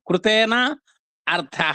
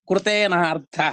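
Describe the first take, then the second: First: The two words are said separately, unmerged. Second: The two words merge into one joined word.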